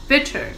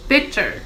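The two takes are said the same way.

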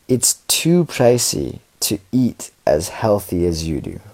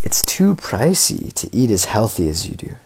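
First: It is read at a slower pace. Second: It is read at a faster pace.

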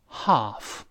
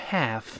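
First: The vowel is a long open back 'ah'. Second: The vowel is a flat front 'a' sound. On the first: "英式发音读成half" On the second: "美音由a 变成a，读成half"

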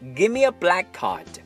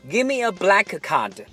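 First: The k sounds merge into one, with no break. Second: Both k sounds are said, with a break between. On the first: The speaker calls it right. "咱们说" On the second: The speaker calls it wrong. "所以这个时候我们就千万不要说"

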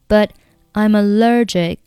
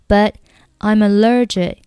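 First: The t of 'but' is silent. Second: The t of 'but' is silent.

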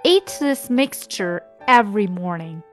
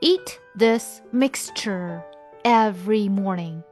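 First: The sentence is read at normal speed. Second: The sentence is read slowly.

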